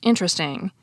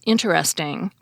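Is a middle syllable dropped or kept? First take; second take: dropped; kept. First: A middle syllable is dropped from the word. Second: Every syllable is pronounced, none dropped. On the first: "which is often pronounced" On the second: "other three-syllable words in which the middle syllable is often dropped"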